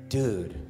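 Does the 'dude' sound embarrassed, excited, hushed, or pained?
hushed. It is said low, quiet and grave. Something serious and secret is coming. "If he was gonna tell you something really serious that nobody else could know about"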